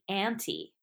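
It is said the American way.

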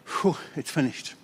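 It is said as a weary, defeated sigh.

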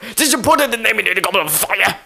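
The question is asked in an angry voice.

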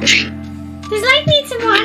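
It is said in a high-pitched feminine voice.

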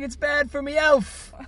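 It is spoken in a British accent. The speaker calls it right.

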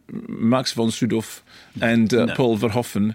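The names are pronounced with Dutch sounds. This is how native speakers of the names' language say them. "my Dutch friend told me that it's"

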